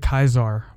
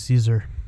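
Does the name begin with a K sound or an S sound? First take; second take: K sound; S sound. First: The name begins with a hard K sound. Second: The name begins with a soft S sound.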